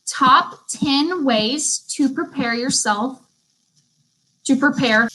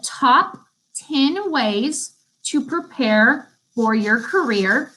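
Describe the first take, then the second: First: Slow repeat of dictation. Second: Slow, careful dictation. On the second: Teacher dictating a note title to students, slow and careful. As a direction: spell out the title slowly for note-takers. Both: Shown as a demonstration. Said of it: "I'm gonna repeat the title".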